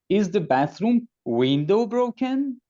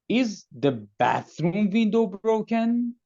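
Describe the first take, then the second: First: The word window carries the main stress. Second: The word bathroom carries the main stress. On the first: The question is about which part of the bathroom. "No, the bathroom door is broken" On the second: The question is about which room's window. "The answer would possibly be no, the kitchen window is broken"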